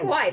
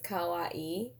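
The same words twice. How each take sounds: First: It is said the American way, final vowels run together. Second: It is said the Japanese way, both final i's sounded. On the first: "But you could say kawaii. That's fine" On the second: "It has like, a different, like, inflection on the... There's two I's, so it's kawaii"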